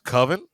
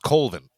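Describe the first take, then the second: First: It is said as 'coven' without an L sound. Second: It is said as 'Colvin' with an L sound. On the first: The speaker calls it right. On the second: The speaker calls it wrong.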